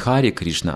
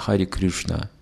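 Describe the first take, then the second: First: Krishna is said with the usual vowel. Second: Krishna is said with an Oriya-style vowel. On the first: "Они не пели не Хари Кришна" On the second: "мы не слышали такого произношения Хари Кришна мантры никогда"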